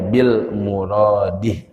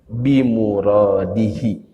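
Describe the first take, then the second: First: It is said with an L after 'bi'. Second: It is said without an L after 'bi'. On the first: The speaker calls it wrong. "itu tidak tepat, keliru ya" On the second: The speaker calls it right. "itu cara bacanya"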